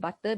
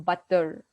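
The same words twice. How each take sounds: First: The middle consonant sounds like a clear T. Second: The middle consonant sounds like a soft D. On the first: "as we pronounce it" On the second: "but they pronounce it more like a"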